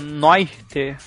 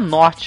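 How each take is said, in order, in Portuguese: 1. A primeira vogal desliza como 'oi'. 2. A primeira vogal é um 'o' simples. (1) "é Noirte" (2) "Não é Norte"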